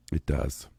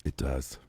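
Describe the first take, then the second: No difference in how they are said.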